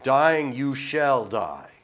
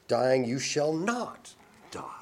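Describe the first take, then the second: First: Slow, loud, leaning on dying; emphatic. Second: Slow hushed whisper, weight on not; serpent's whisper. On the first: Preacher stressing God's command to the man, emphatic. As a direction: press every word of God's warning. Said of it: "is very emphatic". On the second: Preacher voicing the serpent contradicting God, whispered. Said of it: "the serpent, said". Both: Acted.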